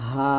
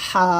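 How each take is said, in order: First: "হা" from the start of the throat, no squeeze; plain open breath on "হা", unnarrowed; normal, unpressed. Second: "হা" squeezed thin from mid-throat; pressed, narrowed. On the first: Teacher contrasting the second letter, relaxed unpressed "হা". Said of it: "নর্মালভাবে উচ্চারণ করবো". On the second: Teacher demonstrating the first letter, "হা" pressed from mid-throat. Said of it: "চাপ দিয়ে চিকন করে বলবো". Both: Shown as a demonstration.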